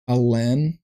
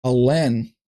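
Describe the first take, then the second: First: Alen? tried out with a questioning rise, rhyming with Helen; trying a pronunciation. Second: Alen said firmly with a falling close, rhyming with Helen; settled pronunciation. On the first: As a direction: test the name Alen as a question, rhymes with Helen. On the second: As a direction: land on Alen like Helen, sure now. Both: Shown as a demonstration. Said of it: "Kinda rhyming with Helen".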